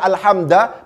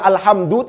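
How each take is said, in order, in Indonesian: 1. Kata itu berakhir dengan vokal a. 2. Kata itu berakhir dengan vokal u. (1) "tidak dibaca alhamda" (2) "yang nyata-nyata dibaca alhamdu"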